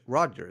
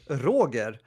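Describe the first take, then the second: First: The name is pronounced the English way. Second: The name is pronounced the Swedish way. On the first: "but in English" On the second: "In Swedish"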